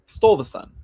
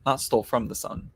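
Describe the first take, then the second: First: "stole" hit high and louder; stress on stole. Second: Said in the usual way. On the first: Shown as a demonstration. Correcting the Raven story to the viewer, stressing "stole". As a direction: punch "stole" to correct yourself.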